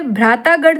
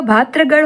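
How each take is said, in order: First: भ्रातागढ़ with -taa in the middle; long aa after t in भ्रातागढ़; wrong form. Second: Said in the usual way. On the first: Shown as a demonstration. Teacher rejects a misspelling, भ्रातागढ़ with long middle aa. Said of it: "भ्रातागढ़ नहीं होगा". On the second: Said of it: "भातृगढ़ होगा".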